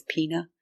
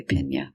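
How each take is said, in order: First: Pina said with a plain n, like "peena"; anglicized "pina"; wrong pina. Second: "piña" with the ñ, "peen-ya"; Spanish piña, "PEEN-ya"; correct piña. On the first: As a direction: say "pina" as English, without the ñ sound. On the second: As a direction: give "piña" its Spanish ny sound. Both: Shown as a demonstration. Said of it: "it's really piña".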